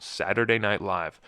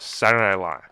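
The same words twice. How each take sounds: First: "Saturday Night Live" with every word fully sounded; properly enunciated. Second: "Saturday Night Live" squashed into one word, middle consonants dropped; slurred. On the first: Shown as a demonstration. Host names the show in full, clearly enunciated. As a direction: say "Saturday Night Live" as three distinct words. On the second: Retold or imitated. Host mocks how people say the show, slurred. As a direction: run "Saturday Night Live" together, louder, swallowing "Night". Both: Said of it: "they call it Saturday Night Live".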